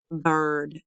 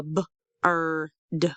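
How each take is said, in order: First: Said in the usual way. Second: B-, er, d with pauses between; sounded out. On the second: Shown as a demonstration. Teacher breaks down picture word, b-, er, d in parts. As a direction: isolate each sound of bird: b-, er, d. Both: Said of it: "Do you hear ah".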